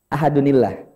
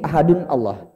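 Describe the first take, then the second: First: The words are joined by a linking 'ni' sound. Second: The words are separate, with no linking vowel. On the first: This is how it is actually recited. "Sehingga cara bacanya" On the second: This is the underlying form before the joining rule. "Aslinya gini"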